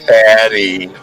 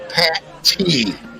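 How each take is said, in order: First: The name is run together as one word. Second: The name is said as two separate parts. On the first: The speaker calls it wrong. "not Patty" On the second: The speaker calls it right. "it's Pat T"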